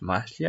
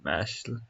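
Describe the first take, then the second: First: Mashal said with an ee ending; alternative pronunciation. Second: Mashal ending on a plain l; clip's pronunciation. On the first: Querying how the manga is pronounced, Mashal said as MASH-lee. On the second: Echoing the video's name for the manga, Mashal said as MASH-ul. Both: Shown as a demonstration. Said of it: "Isn't it pronounced Mashal?".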